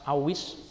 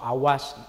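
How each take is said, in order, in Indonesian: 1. Vokal setelah w adalah i. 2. Vokal setelah w adalah a. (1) "kasih harokat kasroh" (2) "atau awas"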